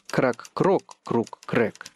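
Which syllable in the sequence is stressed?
крок. The stress falls on the second syllable, крок.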